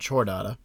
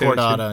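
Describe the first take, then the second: First: The word starts with a soft ch sound. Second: The word starts with a hard k sound. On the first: The speaker calls it wrong. "not Chordata" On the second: The speaker calls it right. "it's Chordata"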